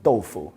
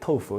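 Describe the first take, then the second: First: It is said with a Chinese pronunciation. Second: It is said with an English pronunciation. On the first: The speaker calls it right. "Start saying tofu" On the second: The speaker calls it wrong. "never call it tofu again"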